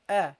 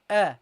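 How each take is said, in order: Both takes have the same delivery.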